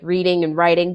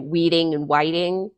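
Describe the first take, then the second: First: The words start with an R sound. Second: The words start with a W sound. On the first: "the hard R sound, as in like reading and writing" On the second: "they might say weeding and whiting"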